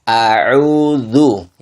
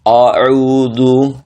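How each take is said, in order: First: The opening hamzah is thin, sounding like a. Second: The opening hamzah is thick, sounding like o. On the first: The speaker calls it right. "yang benar" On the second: The speaker calls it wrong. "Saya contohkan yang salah sekali lagi"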